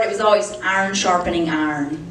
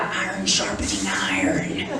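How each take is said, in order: First: Said in the usual way. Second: Much lower, softer mock preacher voice; mocking deep quote. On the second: Wife mocking the couple's stock phrase in a low drone. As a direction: drop way down and intone it like a sermon. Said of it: "They're always like".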